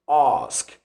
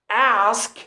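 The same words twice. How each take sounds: First: The word is said with a British vowel. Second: The word is said with an American vowel. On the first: "Ask becomes ask" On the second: "the difference between the American accent and the British accent"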